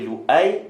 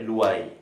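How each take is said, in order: First: A glottal stop separates the two vowels. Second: The vowels glide together without a glottal stop. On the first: This is the more commonly used reading. "dengan hamzah" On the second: This is the less common reading. "tanpa hamzah"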